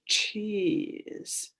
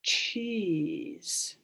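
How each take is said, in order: First: Cheese whispered without voice; whispered word. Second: Said in the usual way. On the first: Shown as a demonstration. Teacher whispering cheese so kids hear the sounds.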